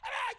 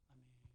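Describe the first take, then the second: First: It is said loudly with rising excitement. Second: It is said weakly, trailing off.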